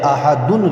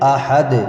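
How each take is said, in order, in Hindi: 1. शब्द 'dun' अक्षर पर खत्म होता है। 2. शब्द सिर्फ़ 'd' की आवाज़ पर खत्म होता है। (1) "अहदुन लिखा हुआ है" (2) "जब आयत करते हैं तो क्या पढ़ेंगे?"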